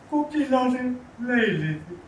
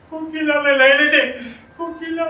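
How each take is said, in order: First: High, loud anguished cry; grief-stricken. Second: Very high, very loud wail of grief; full-force, high-pitched cry of bereavement; anguished outcry. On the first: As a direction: cry out the loss in a raised, pained voice. Widower tells of wife's death. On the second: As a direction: scream the loss at the top of the voice. Widower cries out for dead wife. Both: Acted.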